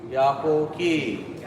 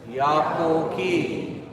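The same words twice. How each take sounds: No difference in how they are said.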